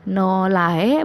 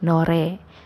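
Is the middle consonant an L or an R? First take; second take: L; R. First: The middle consonant is an L sound. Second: The middle consonant is a flapped R sound. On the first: The speaker calls it wrong. "bukannya nolae" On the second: The speaker calls it right. "tapi nore"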